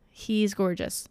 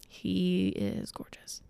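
First: Said in the usual way. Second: Breathy slow whisper of admiration. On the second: Acted. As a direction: whisper it slowly, as if in awe. Repeats praise, then whispers it.

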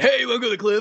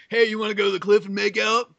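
First: Corny come-on, pitched up a bit; lightly hammed fifties movie line; stilted old movie melodrama. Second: Corny fifties movie come-on; lightly voiced old film romance; stilted old movie melodrama. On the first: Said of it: "Except it's, like, two dudes". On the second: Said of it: "sounds like a nineteen fifties movie".

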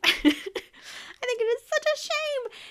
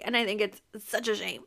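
First: Squeaky high mock-indignant voice; high, theatrical pretend shock; mock outrage. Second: Said in the usual way. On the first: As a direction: repeat it in a silly high voice. Mock repeat of own line.

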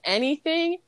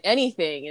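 First: High, rising, incredulous ANYTHING as a question; imitated host querying "Anything?". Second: "Anything." stated with a falling tune; imitated cook confirming "Anything."; firm cook's answer. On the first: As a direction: lift the pitch right up on "Anything?". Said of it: "And then the host is like". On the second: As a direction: state "Anything." firmly at usual pitch, closing it down. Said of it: "And the cook is like".

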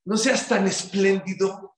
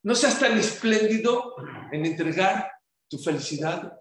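First: "seas" drawn out and rising, whole phrase slow; slow stress on seas. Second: "tan" lifted with a rise at normal pace; phrase with stress on tan. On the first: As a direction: lean on "seas" slowly to fix the word. ("No seas tan espléndido" lento, alargando "seas") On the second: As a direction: say it through, lifting "tan". ("No seas tan espléndido", subiendo en "tan") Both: Shown as a demonstration. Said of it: "esa es la palabra".

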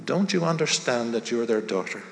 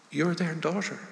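First: Said in the usual way. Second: A much softer, hushed repeat of You're their daughter; gentle, softer repeat. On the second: A narrator's reading. Kind lady gently telling Stephanie she belongs, hushed and tender. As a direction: let it land tenderly, almost hushed. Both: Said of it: "gently took her by the hand".

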